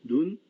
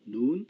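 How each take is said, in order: First: 눈 with a short, quick vowel. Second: 눈 with a drawn-out vowel; long vowel. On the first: Teacher showing students vowel length, 눈 said short. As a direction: say 눈 short, without drawing out the vowel. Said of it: "장단의 경우에는". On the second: Teacher contrasting vowel length for students, 눈 said long. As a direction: stretch the vowel of 눈, like nu-un. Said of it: "장음과 단음". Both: Shown as a demonstration.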